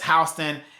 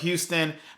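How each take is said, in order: First: The name is said the local Georgia way. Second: The name is said the usual, spelling-based way. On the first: "we pronounce it as Houston in the state of Georgia" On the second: "It is spelled Houston"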